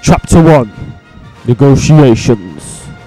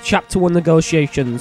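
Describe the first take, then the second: First: It is said in a grand, dramatic voice. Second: It is said in a plain, everyday voice.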